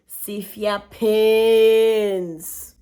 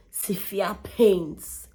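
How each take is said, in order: First: SEVERE PAINS much louder, PAINS held very long; exaggerated PAINS. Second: SEVERE PAINS said slowly and deliberately; drawn-out SEVERE PAINS. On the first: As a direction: belt out and stretch the word PAINS. Repeats it, stretched for emphasis. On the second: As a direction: stretch out SEVERE PAINS at usual pitch. First take of emphatic repeat. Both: Real, not acted.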